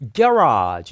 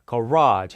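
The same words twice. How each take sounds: First: The stress is on the first syllable. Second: The stress is on the second syllable. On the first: This is the British pronunciation. "영국 발음일 때는 액센트가 앞으로 와서" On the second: This is the American pronunciation. "미국 발음일 때는 garage가 됩니다"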